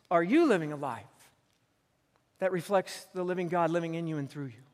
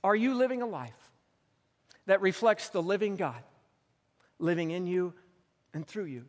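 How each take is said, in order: First: "Are you living a life" then the rest in one unbroken sweep; question run together. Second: Each phrase set apart by long pauses; paused question. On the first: Preacher repeats his question to the church in one flowing line. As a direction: repeat it flowing, without the pauses. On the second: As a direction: let every phrase land before the next. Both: Shown as a demonstration. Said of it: "let me ask you this question".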